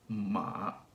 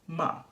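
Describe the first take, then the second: First: The pitch starts low in the voice. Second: The pitch falls from high to low. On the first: "the third one starts pretty low" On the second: "the fourth tone goes from high to low"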